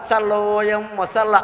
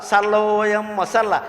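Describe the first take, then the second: Both takes have the same delivery.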